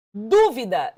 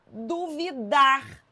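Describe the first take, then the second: First: "Dúvida" with a loud first syllable; stress on DÚ. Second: "duvidar" slow, stressed on DAR; stress moved to the end. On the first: Teacher reading out the accented word, "Dúvida" punched on DÚ. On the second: Teacher showing the word without its accent, "duvidar" slowly stressed on DAR. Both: Shown as a demonstration. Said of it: "se eu tirar o acento".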